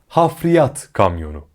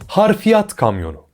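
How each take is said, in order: First: The first word is said as 'hafriyat'. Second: The first word is said as 'harfiyat'. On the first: The speaker calls it right. "Doğru" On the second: The speaker calls it wrong. "Yanlış"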